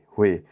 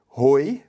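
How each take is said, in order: First: The vowel is pronounced as 'weh'. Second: The vowel is read as 'oy', letter by letter. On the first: The speaker calls it right. "então você vai ler ROE" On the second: The speaker calls it wrong. "ao invés de ler ROI, né, que seria o jeito correto, entre aspas"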